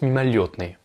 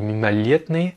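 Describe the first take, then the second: First: The middle vowel is pronounced as yo. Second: The middle vowel is pronounced as ye. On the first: It is read as actually spoken. The speaker calls it right. "mais ça se prononce мимолетное" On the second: It is read exactly as written. The speaker calls it wrong. "là c'est écrit мимолетное"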